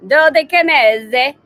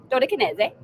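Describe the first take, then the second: First: Put-on loud, higher, drawn-out Italian accent; mock Italian accent. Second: Higher, playful attempt at a French accent; mock French accent. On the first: Host jokes that she and Dave go Italian, mock Italian accent. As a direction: say it slowly like a hammed-up Italian. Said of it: "is either gonna be Italian". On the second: Host jokes the name could be French, mock French accent. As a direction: try it with a French accent, amused. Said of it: "or French".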